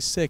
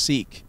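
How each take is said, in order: First: The vowel is short, as in sick. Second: The vowel is long, as in seek. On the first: The speaker calls it wrong. "It's not actually sick" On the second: The speaker calls it right. "they said it's pronounced seek"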